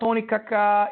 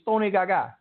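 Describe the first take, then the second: First: The last name begins with a hard K sound. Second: The last name begins with a hard G sound. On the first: The speaker calls it wrong. "It's not Tony Kaka" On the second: The speaker calls it right. "It's Tony Gaga"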